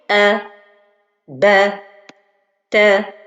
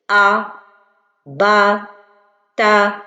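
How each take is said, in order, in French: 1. Les voyelles sont légères, tendant vers le i. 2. Les voyelles sont lourdes et emphatiques, au son grave. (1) "la prononciation correcte" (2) "L'erreur avec le tafrim, c'est d'emphatiser"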